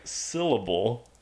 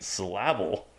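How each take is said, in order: First: Syllable said normally as "SIL-uh-bul"; syllable clearly sounded with the emphasis up front; correct stress. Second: Syllable said as "suh-LAB-ul"; syllable with the emphasis shifted onto its second beat; misplaced stress. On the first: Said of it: "when I say the emphasis on the right syllable". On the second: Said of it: "I'm saying it syllable". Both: Shown as a demonstration.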